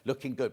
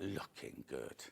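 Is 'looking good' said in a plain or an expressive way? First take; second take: plain; expressive. First: It is said plainly, without added intonation. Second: It is said with a marked, expressive intonation. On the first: It is a simple written compliment. "She just went" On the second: The compliment is given extra flair. "I put that intonation on it"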